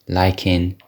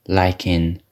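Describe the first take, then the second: The two takes are said the same way.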